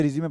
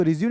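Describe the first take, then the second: First: रिज्यूमे ending in a sounded "may"; pronounced with final e. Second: रिज्यूम ending on the m sound; pronounced without final e. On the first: Teacher giving students the CV word's reading, रिज्यूमे with "may" at the end. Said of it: "रिज्यूमे पढ़ते हैं इसको". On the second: Teacher showing the reading to avoid, रिज्यूम closed on m. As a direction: say रिज्यूम as re-zyoom, no vowel after m. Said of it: "इसको रिज्यूम नहीं पढ़ते". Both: Shown as a demonstration.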